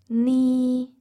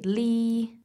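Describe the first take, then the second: First: The word begins with an N sound. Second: The word begins with an L sound. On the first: This is the standard reading. "the standard Cantonese reading would still be" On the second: This is how many young people say it. "you hear lots of young people say li, so they replace the N with the L"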